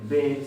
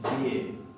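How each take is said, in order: First: The letter name is said without a glide. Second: The letter name has a slight 'i' glide. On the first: "no pronuncian directamente B" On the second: "como si tuviera una leve I adelante"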